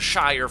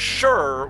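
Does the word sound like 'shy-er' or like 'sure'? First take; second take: shy-er; sure. First: The word is said fully, like 'shy-er'. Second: The word is reduced, sounding like 'sure'. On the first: The word stands alone as a place name. "it's typically Shire whenever it's something like the Shire from Lord of the Rings" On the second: The word ends a compound name. "it's sure whenever it's at the end of a compound-type word"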